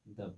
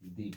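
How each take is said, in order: First: The word ends in a short uh vowel. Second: The word ends in a long ee vowel. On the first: The next word begins with a consonant. "कॉन्सोनेंट के पहले अगर द है तो हम इसको द पढ़ेंगे" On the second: The next word begins with a vowel. "वॉवेल्स के पहले द आता है ... इसको हम दी पढ़ेंगे"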